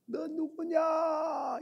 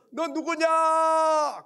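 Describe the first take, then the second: First: High, drawn-out echoing call; long, thinner repeat of a shout. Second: Loud, high, drawn-out shout; stretched hilltop challenge; calling out. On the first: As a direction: answer as the mountain's echo, not at full volume. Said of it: "이렇게 또 들려오는 거예요". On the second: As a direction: yell it across the valley. Child shouts across the mountain. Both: Retold or imitated.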